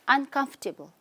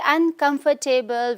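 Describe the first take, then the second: First: The 'fort' part is reduced and weak. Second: The 'fort' part is said fully and clearly. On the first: The speaker calls it right. "you have to reduce the word O R T here" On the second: The speaker calls it wrong. "If we say uncomfortable, we are pronouncing this word wrong"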